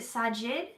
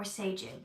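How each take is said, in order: First: Sajid said as SAH-jid, with the broad ah vowel; first pronunciation. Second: Sajid said as SAY-jid, with the ay vowel; now say Sajid as SAY-jid; second pronunciation. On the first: Host checking a viewer's name, first guess SAH-jid. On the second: Host tries the other way to say the viewer's name, SAY-jid. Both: Shown as a demonstration. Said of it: "is it Sajid or Sajid".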